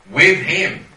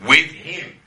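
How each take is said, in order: First: "With" hit harder and louder, "him" sustained; louder repeat. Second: "With" lifted and pressed, then "him" falls away; firm stress on with. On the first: Preacher repeating "With him" to the class, louder. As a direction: swell the repeat, pressing "With". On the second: Preacher stressing "With" to his Bible class, firm emphasis. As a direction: lean into "With" as the first of two takes. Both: Real, not acted.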